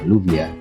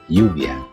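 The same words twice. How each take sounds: First: The first sound is a plain L. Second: The first sound is a Y. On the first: The speaker calls it wrong. "jangan dibaca" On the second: The speaker calls it right. "Itu adalah"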